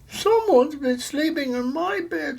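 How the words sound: It is said in a tiny, high voice. A small baby bear is speaking. "said the baby bear in her wee little voice"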